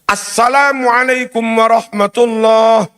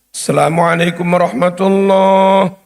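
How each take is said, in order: First: The opening is pronounced like 'as-salam'. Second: The opening is pronounced like 'selam'. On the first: The speaker calls it right. "Kudune ngoten niku" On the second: The speaker calls it wrong. "Selam, selam mocone"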